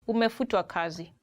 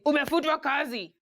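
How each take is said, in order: First: It is said in a gentle, polite tone. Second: It is said in a harsh, blunt tone.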